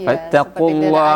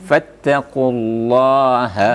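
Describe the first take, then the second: First: The h sound is weak and barely heard. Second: The h sound is stressed with extra breath. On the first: The speaker calls it wrong. "Tidak jelas jadinya kan" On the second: The speaker calls it right. "huruf H itu agak sedikit ada penekanan"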